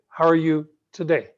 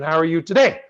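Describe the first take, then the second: First: The ending fades and gets a little softer. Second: The ending stays strong and does not soften. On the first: The speaker calls it right. "See how it ends a little softer?" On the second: The speaker calls it wrong. "I don't say"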